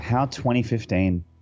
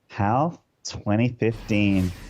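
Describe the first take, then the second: First: It is said in a plain, ordinary tone. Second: It is said in an exaggerated, sassy tone.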